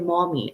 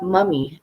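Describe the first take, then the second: First: It is said with the American 'mom' vowel. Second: It is said with the Trinidadian 'mum' vowel. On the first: This is the American way of saying it. "I've lived for so long here now in the United States that I say mommy, M O M M Y" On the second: This is the Trinidadian way of saying it. "not mummy, M U M M Y ... that's how we say it as well in Trinidad"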